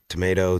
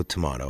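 First: "Tomato" said tuh-MAY-toe; "Tomato" with an A as in day; tomato, American way. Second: "tomato" said tuh-MAH-toe; "tomato" with a broad AH; tomato, British way. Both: Shown as a demonstration. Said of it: "we all say things differently".

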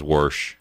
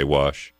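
First: "warsh" with an r before the sh; imitated regional pronunciation. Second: Said in the usual way. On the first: Host quoting how a caller says it, r-coloured "warsh". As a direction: say "warsh", putting an r into it. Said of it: "That's how he says it". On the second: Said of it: "and I say".

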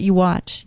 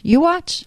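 First: Said in the usual way. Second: "You watch" with "watch" rising much higher; "You watch" sung up high on "watch", daring; emphatic repeat. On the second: Real, not acted. Promising to do flips at sixty.

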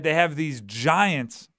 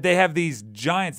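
First: "They have these giants" drawn out very slowly, stress on "have"; slow emphasis. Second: Said in the usual way. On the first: Shown as a demonstration.

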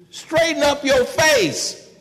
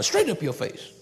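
First: Higher, louder, slow scold; parent scolding. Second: Said in the usual way. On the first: Retold or imitated. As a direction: bark it at a sulking child slowly. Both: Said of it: "That's what you tell your children".

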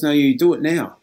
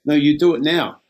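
First: Louder, firm retold order; firm insistence. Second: Louder, firm retold order, same as before; firm insistence. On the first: Trades assistant ordering young worker to ring now, firm louder insistence. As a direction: lay down the law, no arguing. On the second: Trades assistant repeating his order to young worker, firm louder insistence. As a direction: repeat the demand, flat and final.

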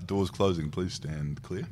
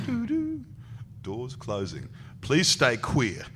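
First: Soft, understated automated lift voice; lift announcement. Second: Sung chime, then slow announcer parody; playful door warning, lifting and slowing at the end; mock lift announcement. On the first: Retold or imitated. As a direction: lightly imitate a recorded door warning. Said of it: "and it said". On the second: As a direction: imitate a lift voice, drawing out the punchline. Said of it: "He goes".

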